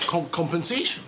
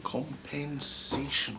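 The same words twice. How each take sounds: First: Stammered, disbelieving rising question; stunned question. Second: Slow, soft, falling repeat of Compensation; slow musing. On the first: Boss stammering at the demand for compensation, stunned disbelief. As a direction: trip over the word compensation in shock. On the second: Boss slowly pondering the word compensation, soft and slow. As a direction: drag the word Compensation out, weighing it. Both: Acted.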